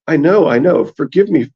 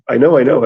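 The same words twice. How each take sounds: First: Raised, sing-song lament on know; wailing septon. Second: Said in the usual way. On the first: A narrator's reading. Septon begging his captors, lightly wailed. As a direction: moan it like a half-mad fool. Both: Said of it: "That sounds kind of patch-facey".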